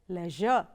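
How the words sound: It is said the British way, like 'lezh-er'.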